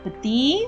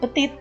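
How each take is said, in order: First: The final t sound is silent. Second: The final t sound is pronounced. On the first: The speaker calls it right. "Petit bukan petit, karena dia kan tidak ada huruf E yang mengikuti konson di akhir" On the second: The speaker calls it wrong. "bukan petit"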